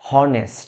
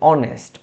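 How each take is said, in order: First: The word begins with an audible h sound. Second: The word begins directly with a vowel sound. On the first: The speaker calls it wrong. "আমরা কিন্তু বলি না হনেস্ট" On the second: The speaker calls it right. "আমরা বলি অনেস্ট, এইচটা উচ্চারণ হচ্ছে না"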